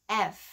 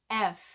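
Both takes have the same delivery.

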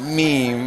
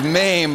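First: The vowel sounds like 'ee'. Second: The vowel sounds like 'ay'. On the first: Someone else said it this way. "she was pronouncing it meme" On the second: This is the show's real name. "So it was MAME"

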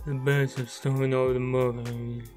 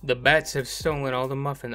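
First: It is said in an imitation of Garfield. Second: It is said in the speaker's normal voice.

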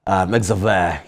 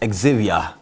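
First: The name is said with a Spanish pronunciation. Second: The name is said with a French pronunciation. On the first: "in Spanish is Xavier" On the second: "in French is Xavier"

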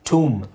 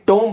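First: The vowel sounds like oo, no b. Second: The vowel sounds like oh, with b. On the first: The speaker calls it right. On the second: The speaker calls it wrong. "ಟೋಂಬ್ ಅಲ್ಲ"

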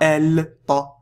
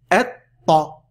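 First: The L is heard before the T. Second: The L is silent and the T is doubled. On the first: The speaker calls it wrong. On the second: The speaker calls it right.

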